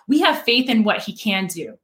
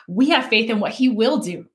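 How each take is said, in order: First: "can" stressed as a declaration. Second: "will" stressed as a declaration. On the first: Three men profess faith, stressing "can". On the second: Three men profess faith, stressing "will". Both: Retold or imitated.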